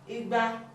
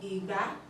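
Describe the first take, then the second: First: The tones go re then re. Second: The tones go do then mi. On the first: It means two hundred. "rere, this is two hundred" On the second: It means garden egg.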